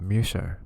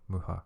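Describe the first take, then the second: First: The middle consonant is an sh sound. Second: The middle consonant is an h sound. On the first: This is the name as said in French. "Misha is French word" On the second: This is the name as said in Czech. "In Checo, Muha"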